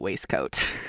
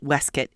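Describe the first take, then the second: First: It is said with both parts fully pronounced. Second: It is said in the older British way. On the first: This is the speaker's own non-British way. "You'll have to endure me pronouncing it waistcoat" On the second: This is how it was said in England then. "would actually have been pronounced waistcoat in England in this era"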